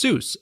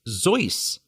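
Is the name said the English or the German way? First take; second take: English; German. First: The name is said the English way. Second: The name is said the German way. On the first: "an anglicized pronunciation" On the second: "the standard German pronunciation"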